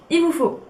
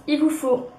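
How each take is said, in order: Both takes have the same delivery.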